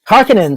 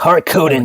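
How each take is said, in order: First: The name is said in a light, casual way. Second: The name is said in a dark, sinister way. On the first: It sounds like a family restaurant. The speaker calls it wrong. "sounds like a burger chain" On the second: It sounds like a threatening villain. The speaker calls it right. "sounds evil, like gangsters who will come and destroy your, grind your bones for spice"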